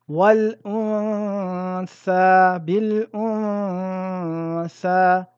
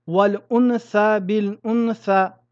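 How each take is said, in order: First: The n is held as a two-count nasal hum. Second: The n is pronounced clearly with no nasal hold. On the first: The speaker calls it right. "respectez un arrêt court sur la ronna" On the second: The speaker calls it wrong. "prononcer un nun avec un idhar est lourd pour la langue"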